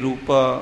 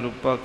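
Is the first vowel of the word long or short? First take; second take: long; short. First: The first vowel is a long u sound. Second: The first vowel is a short u sound. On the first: The speaker calls it wrong. "ਕਈ ਰੂਪਾ ਉਹ ਦੁਲੈਂਕੜ ਕਰ ਜਾਂਦੇ ਆ।" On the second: The speaker calls it right. "ਇੱਥੇ ਔਂਕੜ ਨਾਲ ਹੀ ਹੈ। ਜਿਵੇਂ ਭਾਈ ਸਾਹਿਬ ਨੇ ਰੂਪਾ ਕਿਹਾ ਹੈ, ਇਹ ਸ਼ੁੱਧ ਪਾਠ ਹੈ।"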